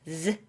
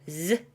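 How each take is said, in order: The two takes are said the same way.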